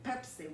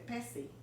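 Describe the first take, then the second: First: It has an English pronunciation with an explosive P. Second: It has a Spanish pronunciation with a soft P. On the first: "we don't say Pepsi" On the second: "we say Pessy"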